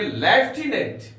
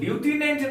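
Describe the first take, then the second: First: The first syllable sounds like lef. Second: The first syllable sounds like loo. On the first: The speaker calls it right. "हम लोग पढ़ेंगे लेफ्टिनेंट" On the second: The speaker calls it wrong. "हम लोग ल्यूटिनेंट नहीं पढ़ेंगे"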